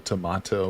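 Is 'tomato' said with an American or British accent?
British. It is said in a British accent. "the Brits say tomato"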